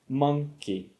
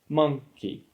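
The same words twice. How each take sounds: First: The stress is on the first syllable. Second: The stress is on the first syllable.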